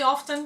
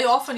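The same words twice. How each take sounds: First: The word is said with a T sound. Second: The word is said without a T sound. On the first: The speaker calls it wrong. "you don't say often" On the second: The speaker calls it right. "No T. Don't pronounce T. As a big thing, you say often"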